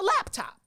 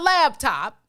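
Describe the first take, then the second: First: The first syllable ends with a p sound. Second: The first syllable ends with a b sound. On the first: The speaker calls it right. "It's a laptop" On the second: The speaker calls it wrong. "it is not a laptop. It's not in a lab"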